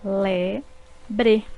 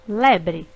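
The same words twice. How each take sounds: First: Le-bre said as two separate beats; syllables split apart. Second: Said in the usual way. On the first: Shown as a demonstration. Teacher dividing le-bre for pupils, syllable by syllable. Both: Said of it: "formadas por duas sílabas".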